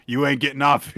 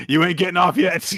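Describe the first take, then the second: First: Said in the usual way. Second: Laughing. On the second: Acted. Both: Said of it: "we're not done with this boy yet".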